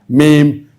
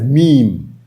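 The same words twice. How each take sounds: First: It is said differently from the one-syllable 'meem'. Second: It is said as one syllable, 'meem'. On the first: The speaker calls it wrong. "or meme" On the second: The speaker calls it right. "It's pronounced as meme, M E E M"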